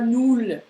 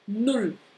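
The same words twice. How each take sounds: First: The vowel is said long. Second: The vowel is said short. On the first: The speaker calls it wrong. "Et c'est pas null" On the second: The speaker calls it right. "une voyelle qui est avant qui va être courte"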